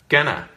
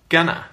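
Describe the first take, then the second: First: It is reduced to one short word. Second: It is reduced to one short word.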